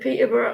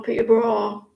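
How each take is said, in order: First: Peterborough with a weak, reduced last syllable; Peterborough ending in "-bruh". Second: Peterborough with a full "-borough" vowel, like "braw"; Peterborough ending in "-braw". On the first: Asking listener how to say the town, Peterborough with short "-buh-ruh". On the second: Offering listener the other way to say it, Peterborough with "-braw". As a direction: open out the end of Peterborough to "-braw". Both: Shown as a demonstration. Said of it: "Is it Peterborough or Peterborough?".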